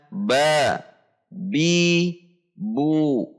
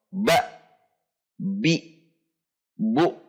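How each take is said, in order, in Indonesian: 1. Setiap suku kata diakhiri terbuka tanpa hamzah. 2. Setiap suku kata diakhiri dengan hamzah. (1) "tetapi dibaca" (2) "tidak menambahkan akhiran hamzah"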